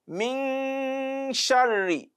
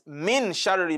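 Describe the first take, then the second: First: The n is hidden with a lingering nasal hum. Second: The n is pronounced clearly without nasal hum. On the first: The speaker calls it right. "So that's gunna" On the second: The speaker calls it wrong. "do not recite as min sharri ma khalaqa. That is idhar"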